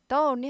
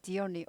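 First: The article is said with a short 'thuh' sound. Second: The article is said with a long 'thee' sound. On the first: The speaker calls it wrong. "the only 하지 않고" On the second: The speaker calls it right. "only가 오우가 모음이니까"

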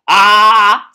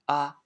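First: It is said at a high pitch. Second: It is said at a low pitch.

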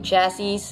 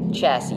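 First: The final S sound is pronounced. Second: The final S sound is silent. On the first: The speaker calls it wrong. "Hindi po chassis, silent S po yun" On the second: The speaker calls it right. "Hindi po madidinig pag pinanounce yung S sa huli"

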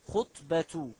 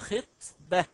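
First: The first vowel is not an 'i' sound. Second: The first vowel is an 'i' sound. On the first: The speaker calls it wrong. "الخطأ في هذه الكلمة" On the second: The speaker calls it right. "بكسر الخاء"

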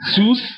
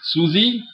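First: One syllable, ending in the 's' sound. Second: Two syllables, ending in an 'ee' vowel. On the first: "definitely not Susie, Sus" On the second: "But definitely not Susie"

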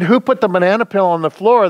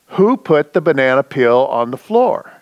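First: It is asked in a calm, plain voice. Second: It is asked in a sterner, firmer voice.

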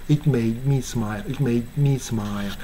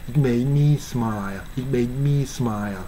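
No difference in how they are said.

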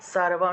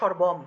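First: The word begins with a clear 's' sound. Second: The word begins with an 'sh' sound. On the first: This is the Sanskrit way of saying it. "সংস্কৃতে বললে সারবম" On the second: This is the Bengali way of saying it. "বললে তো সর্বম"

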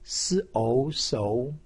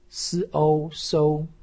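First: The pitch rises from mid to high. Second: The pitch stays high and level. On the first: "二声" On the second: "一声"

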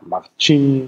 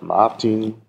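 First: The consonants are palatalized, with a softened sound. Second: The consonants are plain, without any softening. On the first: It expresses affection or smallness. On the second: It is the neutral form of the name.

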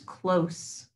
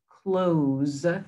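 First: The word ends with a soft 's' sound. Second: The word ends with a buzzing 'z' sound. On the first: It means near. "It's an adjective. It describes where something is" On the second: It means to shut. "which is the opposite of open"

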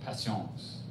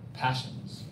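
First: The word is pronounced the French way. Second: The word is pronounced the English way.

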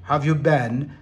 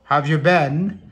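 No difference in how they are said.

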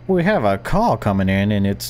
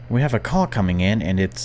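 First: It is said in a put-on radio host voice. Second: It is said in an ordinary speaking voice.

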